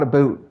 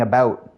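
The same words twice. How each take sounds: First: "a boot" with a long oo vowel; mistaken Canadian pronunciation. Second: "about" with an ow vowel, not oo; own Canadian pronunciation. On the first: Canadian streamer showing what he does not say, "a boot" with plain oo. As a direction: say "a boot", oo replacing the ow of about. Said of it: "There's a difference there". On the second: Canadian streamer showing viewers how he says it, "about" with a clear ow. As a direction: say "about" carefully with the diphthong ow. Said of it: "When I say about". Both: Shown as a demonstration.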